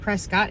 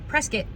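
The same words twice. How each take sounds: First: The final syllable sounds like cot. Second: The final syllable rhymes with biscuit. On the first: The speaker is not from around here. The speaker calls it wrong. "not Prescott" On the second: The speaker is from around here. The speaker calls it right. "Rhymes with biscuit"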